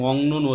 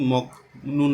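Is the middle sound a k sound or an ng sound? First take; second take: ng sound; k sound. First: The first syllable ends in an ng sound. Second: The first syllable ends in a k sound. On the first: The speaker calls it right. "এজন্য আমরা এটা মংনুন উচ্চারণ করছি" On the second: The speaker calls it wrong. "না বলে"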